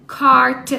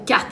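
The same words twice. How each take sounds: First: CARTE said as if it were an English word; English accent. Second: Said in the usual way. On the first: Shown as a demonstration. Mother shows how to read French words as English, English accent. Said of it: "même avec ton accent anglais". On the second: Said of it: "Fais semblant que c'est en anglais".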